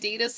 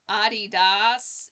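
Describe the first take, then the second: First: It is pronounced the local way. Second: It is pronounced the European way. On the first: The speaker calls it wrong. "we say it Adidas here. I guess it's wrong" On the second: The speaker calls it right. "the more proper correct way to say it"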